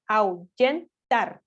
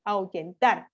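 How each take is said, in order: First: "ahuyentar" muy lento, sílaba por sílaba; separado en sílabas. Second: "ahuyentar" más seguido, marcando TAR al final; acento en última sílaba. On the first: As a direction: di "ahuyentar" como au... yen... tar, con pausas. ("ahuyentar" silabeado despacio para mostrar la tónica) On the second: ("ahuyentar" con la fuerza de voz en TAR) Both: Shown as a demonstration. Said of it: "recae en la última posición".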